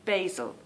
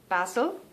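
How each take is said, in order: First: Basil with a long A, "bay-zil"; American basil. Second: Basil with a short A, "bazzle"; southern English basil. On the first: Contrasting the American basil for viewers, "bay-zil". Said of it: "you pronounce it basil". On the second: Showing the southern English basil, "bazzle". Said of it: "pronounce my vowels like ... down south in England". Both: Shown as a demonstration.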